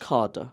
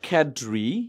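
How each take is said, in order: First: Said with a British pronunciation, ending in 'ah'. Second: Said with an American pronunciation, ending in 'ree'. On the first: "ব্রিটিশরা বলে" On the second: "আমেরিকানরা মনে হয় বলে"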